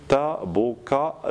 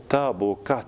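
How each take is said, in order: First: "tabokat" split into syllables, d and t separate at the end; written form. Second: "tabokat" with d and t merged into one final t; assimilated T. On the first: Teacher dictating spelling, "tabokat" broken into parts. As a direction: spell out "tabokat" piece by piece, ending de, te. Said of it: "On va écrire". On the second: Teacher showing assimilation, "tabokat" as pronounced. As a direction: end "tabokat" on a single merged t. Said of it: "ça devient te". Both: Shown as a demonstration.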